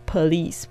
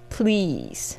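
First: An extra vowel separates the p and l. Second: The p and l are joined with no vowel. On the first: The speaker calls it wrong. "不要念成这个police 不要哈" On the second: The speaker calls it right. "所以你一定要念please 啊"

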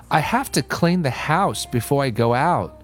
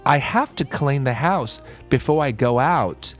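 Both takes have the same delivery.

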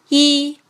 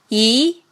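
First: The pitch stays high and level. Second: The pitch rises from mid to high. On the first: "一声平" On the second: "二声扬"

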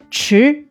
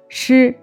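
First: The syllable carries a full, stressed tone. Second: The syllable is light, in the neutral tone. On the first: It means a spoon. "表示勺子的时候读匙" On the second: It is part of the word for key. "匙轻声组词"

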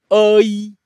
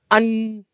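First: The word ends without a nasal sound. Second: The word ends with a nasal sound. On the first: This is the old village's pronunciation. "老村叫阿依" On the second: This is the new village's pronunciation. "新村叫安，安有鼻音"

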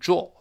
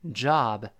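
First: It is said with a British vowel. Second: It is said with an American vowel. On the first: "英国人都是job" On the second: "美国人又j 再看r 拼到一块叫job job"

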